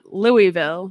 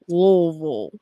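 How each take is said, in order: First: The name is said with its syllables spelled out. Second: The name is squeezed into almost one syllable. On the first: The speaker calls it wrong. "It's not Louisville" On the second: The speaker calls it right. "It's all supposed to be like one one syllable"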